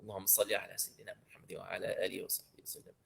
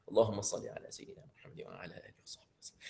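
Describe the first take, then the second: First: Soft, rapid murmured salawat; quiet blessing. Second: Rapid whispered salawat; whispered blessing. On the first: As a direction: murmur the salawat fast under the breath. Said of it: "second recitation, whispered". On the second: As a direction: breathe the whole salawat out fast. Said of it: "same salawat said aloud before". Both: Shown as a demonstration.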